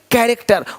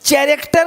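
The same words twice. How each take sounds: First: The word begins with a k sound. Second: The word begins with a ch sound. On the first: The speaker calls it right. "यहाँ भी सी एच भी का है" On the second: The speaker calls it wrong. "नहीं"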